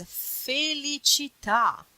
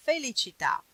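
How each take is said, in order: First: FELICITÀ drawn out, high and loud; slow, emphatic demonstration of "felicità"; savoured model word. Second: Said in the usual way. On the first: Shown as a demonstration. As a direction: stretch "felicità" syllable by syllable with emphasis. Presents a very beautiful word.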